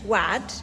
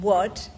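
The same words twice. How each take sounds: First: The vowel sounds like the one in 'mad'. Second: The vowel sounds like the one in 'odd'. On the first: "as in mad" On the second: "as in odd or nod"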